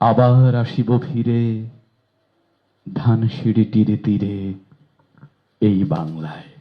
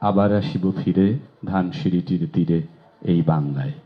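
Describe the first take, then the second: First: The vowels are drawn out, some held longer. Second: The vowels are kept short, not stretched. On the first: The speaker calls it right. "স্বরধ্বনিগুলো প্রাণ দিয়ে দিয়ে কোথাও এক মাত্রা কোথাও দুই মাত্রায় জায়গা দিয়ে পড়লে" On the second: The speaker calls it wrong. "স্বরধ্বনিগুলো বাদ দিয়ে দিয়ে পড়ি"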